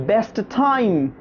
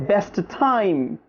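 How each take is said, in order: No difference in how they are said.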